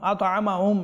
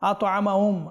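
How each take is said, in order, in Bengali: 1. 'h' ধ্বনিটি চাপা ও দুর্বল। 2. 'h' ধ্বনিটি স্পষ্টভাবে উচ্চারিত হয়। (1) "এভাবে করবেন না" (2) "হা স্পষ্ট"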